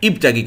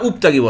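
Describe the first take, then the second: First: The word begins with an i vowel. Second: The word begins with a u vowel. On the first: The speaker calls it right. "আপনি বলবেন ইবতাগি। ... জের দিয়ে পড়তে হয়" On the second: The speaker calls it wrong. "আপতাগি বলবেন না উপতাগি বলবেন?"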